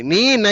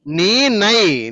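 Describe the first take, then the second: First: Said in the usual way. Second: Very slow, each sound drawn out: నీ, నై; slow model reading. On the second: Shown as a demonstration. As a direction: spell out నీ, నై slowly for the student. (నెమ్మదిగా, ఒక్కో అక్షరం విడదీసి) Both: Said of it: "నా అనొద్దమ్మా".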